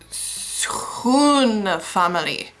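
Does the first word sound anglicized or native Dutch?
native Dutch. The first word is said with Dutch pronunciation. The speaker calls it right. "It's schoen family"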